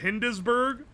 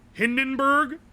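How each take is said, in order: First: An S sound is pronounced in the middle. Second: The middle S sound is left out. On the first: The speaker calls it wrong. "Instead of" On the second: The speaker calls it right. "The S is silent"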